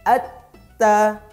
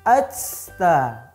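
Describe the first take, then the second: First: The t is firm without extra breath. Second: The t is released with too much breath. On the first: The speaker calls it right. "Tapi tetap dikuatkan" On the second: The speaker calls it wrong. "berlebihan dalam mengeluarkan nafasnya"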